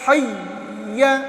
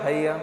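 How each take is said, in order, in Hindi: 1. Double y आवाज़ सख्त दबाव के साथ रोकी जाती है। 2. डबल y आवाज़ हल्के से छोड़ दी जाती है। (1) "तशदीद को अदा करने के लिए सख्ती ज़रूरी है।" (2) "बहुत सारे बच्चे क्या करते हैं ... तो तशदीद अदा ही नहीं हुई।"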